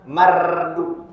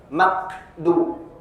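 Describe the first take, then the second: First: The middle consonant is trilled like a rolled r. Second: The middle consonant sounds like a hard k. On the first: "bergetar atau istilahnya takrir ... bukan mardu. Salah" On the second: "seolah-olah ada jadi kaf ... makdu ... salah"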